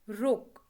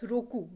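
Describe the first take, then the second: First: The word ends without a final vowel. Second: The word ends with a clear final vowel. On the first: The speaker calls it right. "We say rok" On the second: The speaker calls it wrong. "for six we don't say as roku"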